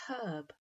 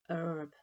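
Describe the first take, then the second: First: It starts with an audible h sound. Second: It starts with no h sound.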